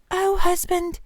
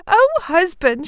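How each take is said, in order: First: Acted dread, held high without extra volume; dismayed wife. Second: High, drawn-out excited greeting; acted breathless wonder, pitched way up; excited wife. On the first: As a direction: lament to her husband in dawning horror. Wife realises the terrible mistake. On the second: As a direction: greet him bursting with amazing news. Wife greets husband with amazing news. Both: A narrator's reading.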